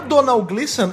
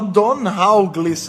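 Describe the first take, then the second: First: The first name is said in a simpler way. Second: The first name is said in a harder way. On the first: This is the correct way to say the name. The speaker calls it right. "é muito mais fácil" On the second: This is how the hosts had been saying the name. The speaker calls it wrong. "a gente fala o mais difícil"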